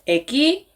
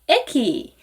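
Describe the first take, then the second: First: The first syllable is not high in pitch. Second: The first syllable is high in pitch. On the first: The speaker calls it wrong. "이렇게 하면은 ... 사투리처럼 들릴 수도 있고 좀 어색하게" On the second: The speaker calls it right. "에가 높죠? 이렇게 발음하는 게 맞는데"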